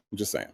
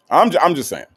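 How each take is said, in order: First: Offhand disclaimer. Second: "I'm just saying" pitched up and louder; emphatic disclaimer. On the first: Host excusing a catty remark, softly and offhand. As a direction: toss it off softly, under the main talk. Muttered disclaimer, then repeated emphatically. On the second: Host defending a catty remark, louder and emphatic. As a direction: push "I'm" high and loud, insisting. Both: Real, not acted.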